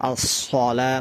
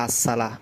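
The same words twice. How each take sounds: First: আসসালা with thick rounded s, like as-sola; careful full-mouthed আসসালা; correct sad. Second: আসসালা with thin s and open a; wrong sin. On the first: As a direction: make the s of আসসালা heavy and rounded. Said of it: "সদের জায়গা সিন হয়ে যায়". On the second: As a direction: say আসসালা lightly, plain s. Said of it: "অনেকে বলে". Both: Shown as a demonstration.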